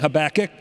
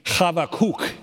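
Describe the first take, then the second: First: The name has an ordinary English pronunciation. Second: The name has a Hebrew pronunciation. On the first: "we've been saying Habakkuk" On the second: "if you want to pronounce it in Hebrew, it would be Habakkuk"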